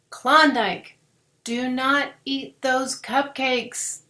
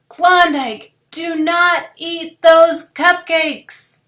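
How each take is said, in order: First: It is said at normal volume. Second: It is said really loudly.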